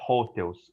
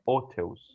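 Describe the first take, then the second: First: The starting h sound is pronounced. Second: The starting h sound is silent. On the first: The speaker calls it wrong. "a gente não fala hotels" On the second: The speaker calls it right. "em outras palavras ele não aparece"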